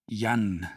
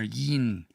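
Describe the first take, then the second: First: The ending has an open 'ah' vowel. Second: The ending has a close 'ih' vowel. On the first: This is how one particular speaker said it. "he pronounces it Yan" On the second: This is how it is usually heard. "It always sounds like yin"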